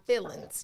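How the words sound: The word is said in a Black vernacular pronunciation. The speaker calls it right.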